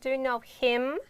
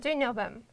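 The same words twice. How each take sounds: First: The h at the start of him is pronounced. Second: The h at the start of him is dropped. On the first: "I'm not pronouncing like" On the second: "it's easy to tell"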